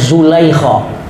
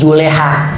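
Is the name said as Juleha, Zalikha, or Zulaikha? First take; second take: Zulaikha; Juleha. First: The name is said as Zulaikha. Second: The name is said as Juleha. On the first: This is how local people read it. "orang kita bacanya" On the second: This is the simplified Betawi form. "Dalam bahasa Betawi"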